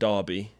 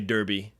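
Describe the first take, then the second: First: The name is said with a British pronunciation. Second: The name is said with an American pronunciation.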